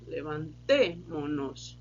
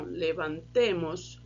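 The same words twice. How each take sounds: First: "levantemo-nos" slow, stress on "te"; slow stress demo. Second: "Levantemos" slow, stress on "te"; slow stress demo. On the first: Teacher showing students that the stress stays on "te". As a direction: say "levantemo-nos" slowly, leaning on "te". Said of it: "o som ali ficou pra paroxítona". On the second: Teacher comparing the two forms' sound for students. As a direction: say "Levantemos" slowly, leaning on "te". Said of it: "tem a questão do som". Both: Shown as a demonstration.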